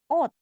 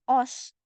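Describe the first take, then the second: First: The word ends in a t sound. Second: The word ends in an s sound. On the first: The speaker calls it right. "tapi ot" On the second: The speaker calls it wrong. "Ini bacanya bukan os"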